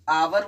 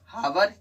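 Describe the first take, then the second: First: The word begins directly with a vowel sound. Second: The word begins with an audible h sound. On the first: The speaker calls it right. "एच silent रहता है" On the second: The speaker calls it wrong. "हावर ये तो गलत है"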